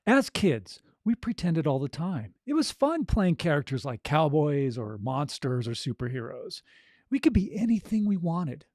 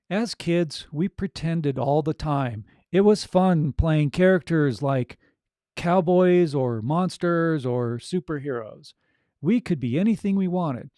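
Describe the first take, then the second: First: Natural, flowing storytelling with feeling; unforced, conversational read with energy; energized, heartfelt narration. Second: Stiff, slow, loud read-aloud; plodding reading off the page, no energy; boring, ready reading. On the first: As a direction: share the story like you are excited about it. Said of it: "it has that energy in it, the emotion in it". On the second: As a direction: recite it word by word with no feeling behind it. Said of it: "Very reedy, boring, no energy behind it". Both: Shown as a demonstration.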